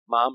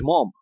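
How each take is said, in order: First: The vowel is a short, light o sound. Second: The vowel is a long o sound. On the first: The speaker calls it right. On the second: The speaker calls it wrong.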